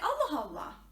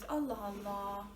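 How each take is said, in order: First: It sounds surprised and shocked. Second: It sounds puzzled and thoughtful. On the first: The speaker is shocked by something unexpected. "You're surprised about something. Oh, I'm shocked" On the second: The speaker is unsure and wondering why something happened. "You're not sure about something, and you're thinking of it"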